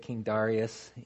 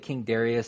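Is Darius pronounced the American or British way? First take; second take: British; American. First: Darius is pronounced in a British way. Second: Darius is pronounced in an American way. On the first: "even the British, they'll say King Darius" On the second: "like we'll say King Darius"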